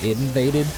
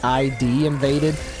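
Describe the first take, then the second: First: ID is spoken as one short word. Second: ID is spoken as two separate letters. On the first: "but they pronounce it" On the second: "When you look at it"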